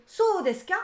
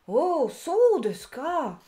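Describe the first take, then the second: First: "So desu ka" high and loud as a question; questioning tune. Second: "Oh, so desu ka." slow with the pitch falling on ka; falling intonation. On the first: Teacher contrasting "So desu ka" asked as a question. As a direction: ask "So desu ka" like a real question. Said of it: "c'est une question". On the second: Teacher showing learners the falling "so desu ka". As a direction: let "so desu ka" drop down at the end, slowly. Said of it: "Elle se lit avec une intonation descendante". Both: Shown as a demonstration.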